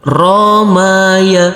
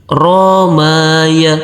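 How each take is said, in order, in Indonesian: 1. Setiap suku kata dibaca dengan vokal pendek. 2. Setiap suku kata dibaca dengan vokal pendek.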